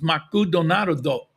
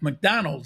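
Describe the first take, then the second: First: It is said with a Japanese pronunciation. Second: It is said with an English pronunciation.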